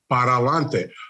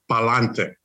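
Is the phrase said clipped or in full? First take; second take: full; clipped. First: Both syllables of para are fully pronounced. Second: Para is shortened, running into lante. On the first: This is the standard Spanish form. "the correct Spanish is para lante" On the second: This is the Puerto Rican home form. "Puerto Ricans tend to cut words a little short"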